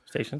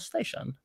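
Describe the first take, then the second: First: The word is said in a plain, neutral manner. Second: The word is said in a posh, snooty manner. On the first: "without any kind of like comedy in it at all" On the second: "with a very uh, bougie attitude?"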